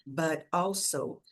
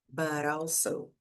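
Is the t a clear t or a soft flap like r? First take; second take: soft flap; soft flap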